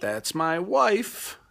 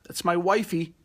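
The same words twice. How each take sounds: First: Proud, slow. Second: Playful "wifey". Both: Real, not acted.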